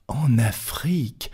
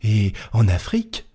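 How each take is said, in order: First: Slow breathless whisper of disbelief; whispered astonished echo; stunned whisper. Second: Said in the usual way. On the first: Acted. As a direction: breathe the words, unable to believe it. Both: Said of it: "répéta Passepartout".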